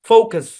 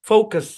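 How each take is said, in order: Both takes have the same delivery.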